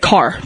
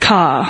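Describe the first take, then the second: First: The word ends with a pronounced R sound. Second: The word ends in an open ah without R.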